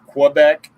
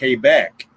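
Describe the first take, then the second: First: It begins with a KW sound. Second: It begins with a plain K sound. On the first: This is the everyday way of saying it. "instead of" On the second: This is the radio way of saying it. "Almost like you're pronouncing it with a K"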